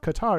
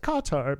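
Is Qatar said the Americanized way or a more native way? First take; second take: Americanized; native. First: Qatar is said with an Americanized pronunciation. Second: Qatar is said closer to the native pronunciation. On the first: The speaker calls it wrong. "people were saying like the Americanized pronunciation. They were like, it's not Qatar" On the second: The speaker calls it right. "it's Qatar"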